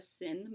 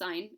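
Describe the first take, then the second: First: The vowel is short, like in pin. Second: The vowel is long, like in pine. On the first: The speaker calls it wrong. "when students call it the sin button" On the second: The speaker calls it right. "It means sign"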